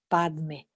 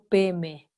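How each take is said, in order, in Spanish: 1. La primera sílaba es pad, con d. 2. La primera sílaba es pe, sin d. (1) "si es la pronunciación del sánscrito, tendríamos que decir" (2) "los tibetanos no podían pronunciar ese Padme y entonces quedó Peme"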